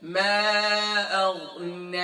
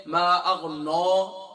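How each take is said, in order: First: "ما اغنی" drawn out, ending in a thin ne; held vowels in "ما اغنی", light final nun. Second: "ما اغنو" drawn out with a thick, rounded no; slow "ما اغنو" ending in a full dark no; heavy nun. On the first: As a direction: recite "ما اغنی" slowly with the nun kept light. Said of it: "یہ نون light ہو جائے گا". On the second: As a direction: demonstrate the mistake "ما اغنو", nun made heavy. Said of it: "نون بھی موٹا ہو رہا ہے". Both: Shown as a demonstration.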